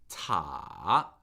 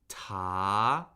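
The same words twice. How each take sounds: First: The pitch dips low, then rises. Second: The pitch rises steadily from mid. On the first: "it falls and then rises above where it begins" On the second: "Second tone is the rising tone"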